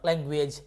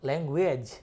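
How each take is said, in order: First: The ending sounds like 'eij', as in 'age'. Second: The ending sounds like a short 'ij'. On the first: The speaker calls it wrong. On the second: The speaker calls it right.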